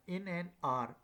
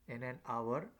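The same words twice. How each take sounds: First: HOUR said like "ar"; "hour" without any w sound; HOUR as one syllable. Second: HOUR said as "ah-wer"; "hour" opened out into "ah-wer"; HOUR in two syllables. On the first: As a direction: run "hour" together into a single open "ar". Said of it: "it like all". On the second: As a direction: give "hour" a w glide before the final "er". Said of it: "somebody pronounced it an hour". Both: Shown as a demonstration.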